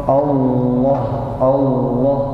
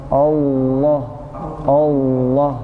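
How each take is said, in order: The two takes are said the same way.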